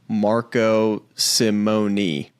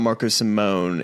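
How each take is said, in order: First: Simone is said with three syllables. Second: Simone is said with two syllables. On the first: The speaker calls it right. "It's it's actually three syll- syllables" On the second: The speaker calls it wrong. "it's not Marco Simone"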